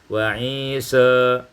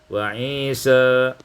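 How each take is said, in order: Both takes have the same delivery.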